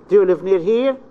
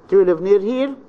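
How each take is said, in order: First: The voice starts low and rises to medium pitch. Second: The same.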